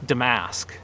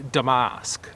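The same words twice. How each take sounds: First: Damask with a flat American a, as in "ask"; Americanized pronunciation. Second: Damask with a broad "ah", as "da-MAHSK"; British pronunciation. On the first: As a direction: say damask the American way, "duh-MASK". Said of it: "what I say is the more Americanized". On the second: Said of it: "British pronunciation is a little closer to". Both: Shown as a demonstration.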